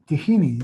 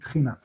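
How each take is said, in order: First: A vowel is heard between the first two consonants. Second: The first two consonants are said together, no vowel. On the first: This is how English speakers say it. "it's like they saying Tehina" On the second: This is how it is said in Hebrew. "instead of saying Tchina"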